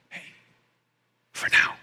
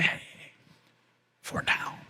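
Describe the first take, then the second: First: Hushed and gentle, barely voiced; soft whisper. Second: Fully unvoiced, tender whisper. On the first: Pastor to a hurting listener, softly whispered. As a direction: comfort a mourner in a near whisper. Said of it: "whispers to you". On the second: Jesus whispering to someone in their darkest moment, gentle whisper. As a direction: breathe it like a secret comfort. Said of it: "whisper to you and say". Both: Shown as a demonstration.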